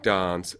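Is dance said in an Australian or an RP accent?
RP. The word is said in an RP accent. "an RP speaker would continue to say as ah, like dance"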